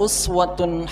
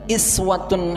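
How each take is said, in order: First: The word begins with a u vowel. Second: The word begins with an i vowel. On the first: "lafaz uswah dibaca dengan dhammah" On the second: "dengan harokat kasrah"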